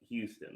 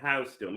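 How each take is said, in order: First: The name begins with a 'hue' sound. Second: The name begins with a 'house' sound. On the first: The speaker calls it right. "here in America we call it Houston" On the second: The speaker calls it wrong. "if you say house stone, we don't know what you meant"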